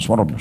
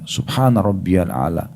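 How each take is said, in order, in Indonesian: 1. Diucapkan cepat dan tergesa-gesa, tanpa jeda. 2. Diucapkan perlahan dan tenang, dengan jeda.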